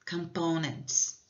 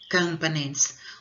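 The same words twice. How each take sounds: First: The stress is on the second syllable. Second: The stress is on the first syllable. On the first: The speaker calls it right. "A tônica, word stress, dessa palavra é a segunda sílaba" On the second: The speaker calls it wrong. "como se o word stress estivesse na primeira sílaba"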